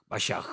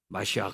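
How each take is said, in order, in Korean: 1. 강하고 거친 목구멍소리로 끝납니다. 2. 강하고 거친 목구멍소리로 끝납니다.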